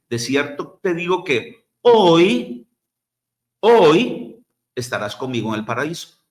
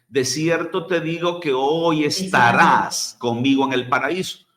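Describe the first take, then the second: First: There is a pause after "hoy". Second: There is no pause after "hoy". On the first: "Algunos lo leen así" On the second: "sin ninguna coma"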